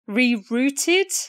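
The word is said with a British pronunciation. "it's the British way of saying it"

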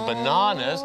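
It is said in a British accent. "ชาวอังกฤษออกเสียง"

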